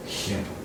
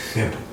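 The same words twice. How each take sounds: First: Unvoiced whispered simple. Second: Said in the usual way. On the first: Shown as a demonstration. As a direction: breathe the word simple as a secret.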